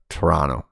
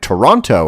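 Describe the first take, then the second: First: The syllables are run together and partly dropped. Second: Every syllable is pronounced clearly and separately. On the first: This is how locals say the name. The speaker calls it right. "we just kind of mash our syllables together" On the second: This is how outsiders say the name. The speaker calls it wrong. "they're like, and Toronto"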